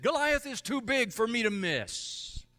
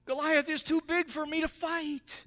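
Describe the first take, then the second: First: Bold, high confident boast; confident David. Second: High whiny frightened soldier. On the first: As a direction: say it like a fearless David. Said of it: "David said". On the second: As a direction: whine it like a scared soldier. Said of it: "the soldiers said". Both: Retold or imitated.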